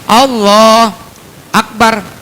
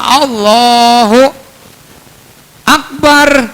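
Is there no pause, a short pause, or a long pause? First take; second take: short pause; long pause. First: There is a short pause between the words. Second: There is a long pause between the words.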